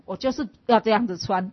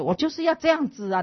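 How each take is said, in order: First: 要 hit louder, held firm; stress on 要. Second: 要 punched high and loud, falling; stress on 要. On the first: Insisting to the senior she will dress this way, 要 stressed. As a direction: push 要 in 我就是要这样子穿. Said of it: "我就很坚持". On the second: Insisting to the classmate on her own choice, 要 stressed high. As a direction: lean hard on 要 in 我就是要这样子啊. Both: Retold or imitated.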